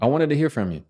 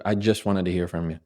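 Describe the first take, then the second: First: Higher-pitched, direct statement; assertive. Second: Understated hedge on "just"; hesitant. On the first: Coach showing the line without "just", assertive. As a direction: lift it and land firmly on the fall. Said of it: "Which one sounds more assertive?". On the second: Coach contrasting a weak email line, hesitant. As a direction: toss it off as a less committed version. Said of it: "instead of". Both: Shown as a demonstration.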